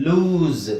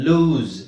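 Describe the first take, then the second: Both takes have the same delivery.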